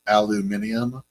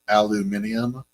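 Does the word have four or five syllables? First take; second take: five; five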